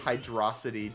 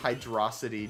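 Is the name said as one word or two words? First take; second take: one word; one word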